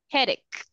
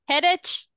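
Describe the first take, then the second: First: The word ends with a k sound. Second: The word ends with a ch sound. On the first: The speaker calls it right. "we say k, not ch" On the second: The speaker calls it wrong. "we say k, not ch"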